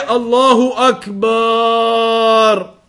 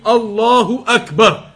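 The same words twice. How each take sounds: First: The vowel after the b is drawn out long. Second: No vowel is drawn out beyond normal length. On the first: The meaning of the phrase is changed. The speaker calls it wrong. "Don't extend the ba" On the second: The phrase keeps its proper meaning. The speaker calls it right. "it must be pronounced properly and accurately"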